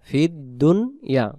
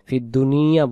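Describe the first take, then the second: First: The n is closed with no following vowel. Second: The n is followed by an i vowel. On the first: The speaker calls it right. "নুন পেশ দুন" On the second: The speaker calls it wrong. "আমাদের অনেকেই আমরা হয়ে যায় ... ফিদ্দুনিয়া হয়ে যায়"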